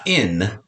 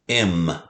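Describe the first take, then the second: First: The syllable ends with an n sound. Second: The syllable ends with an m sound. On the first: The speaker calls it wrong. "Not in" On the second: The speaker calls it right.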